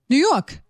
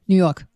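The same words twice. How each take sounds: First: It is said slowly, with weight. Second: It is said quickly.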